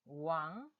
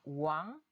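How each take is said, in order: First: The pitch rises gradually across the syllable. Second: The same.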